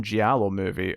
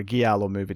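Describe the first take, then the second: First: "giallo" with a soft J sound at the start; soft G pronunciation. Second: "giallo" with a hard G as in "go"; hard G pronunciation. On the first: Reviewer offering one way to say "giallo", soft G. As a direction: say "giallo" as JAH-lo, like "jee-AH-lo". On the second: Reviewer offering the other way to say "giallo", hard G. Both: Shown as a demonstration. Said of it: "depending on how you pronounce it".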